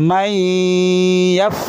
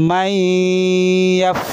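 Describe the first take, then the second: The two takes are said the same way.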